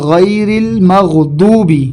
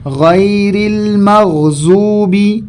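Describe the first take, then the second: First: The key consonant sounds like a plain d. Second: The key consonant sounds like a z. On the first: "ये भी गलत है" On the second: "ये भी गलत है"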